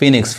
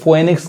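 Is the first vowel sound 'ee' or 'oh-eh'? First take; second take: ee; oh-eh. First: The first syllable sounds like 'fee'. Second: The first syllable sounds like 'foe-eh'. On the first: The speaker calls it right. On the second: The speaker calls it wrong. "बहुत लोग इसको फोएनिक्स कहते हैं, फोएनिक्स नहीं पढ़ाएगा"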